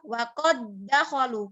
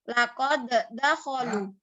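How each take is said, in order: First: The two d sounds merge into one doubled d. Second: The two d sounds are pronounced separately. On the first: The speaker calls it right. "tapi dibaca waqad dakhalu karena melebur" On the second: The speaker calls it wrong. "bukan dibaca laqad dakhalu"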